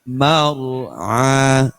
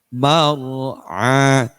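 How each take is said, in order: The two takes are said the same way.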